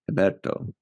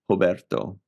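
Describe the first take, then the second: First: The name begins with a breathy H sound. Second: The name begins with an R sound.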